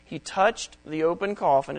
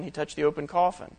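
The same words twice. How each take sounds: First: Touched lifted and leaned on; stress on touched. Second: Coffin stressed with a rising end. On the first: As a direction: press the word touched, let coffin fall. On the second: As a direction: land on coffin and lift it like a question. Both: Shown as a demonstration. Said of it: "It doesn't say he touched the man".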